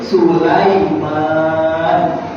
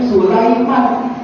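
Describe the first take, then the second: First: The last vowel is drawn out long. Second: The last vowel is kept short. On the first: This is the original Arabic form of the name. "menjadi Sulaiman panjang" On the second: This is the form used in Indonesia. "menjadi Sulaiman pendek"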